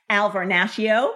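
The name is said in an American accent.

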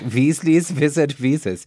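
It is said in a put-on German accent.

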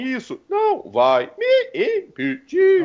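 Each syllable is said in a different voice.

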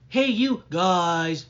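The pitch drops down at the end.

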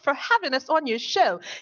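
It is said in a put-on British accent. "I'll do my outro in a British accent"

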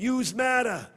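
It is said in a Brooklyn accent.

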